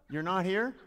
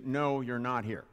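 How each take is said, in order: First: "You're not here?" high and loud, rising on "here"; loud, high echo question, "here" swung upward; incredulous question. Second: "you're not here" stated slowly with a falling end; slow, louder "No, you're not here", as a firm answer; flat denial. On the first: Pretend. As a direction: call out "not here?" in mock disbelief, pitch climbing. Incredulous question to audience member. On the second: Acted. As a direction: say "not here" as a settled fact, dropping at the end. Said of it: "if somebody said to you".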